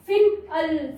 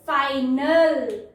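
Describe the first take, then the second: First: फिनल pieced together as fin-ul; children's misreading. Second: फाइनल drawn out slowly as fine-ul; slow teaching फाइनल with a long eye; correct long I. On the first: Retold or imitated. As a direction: imitate a child sounding out फिनल with short i. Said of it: "कैसे पढ़ते हैं". (बच्चों जैसा गलत 'फिनल', छोटी 'इ') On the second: Shown as a demonstration. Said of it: "ये फिनल नहीं पढ़ेंगे". (फाइनल में लंबा 'आई', खींचकर)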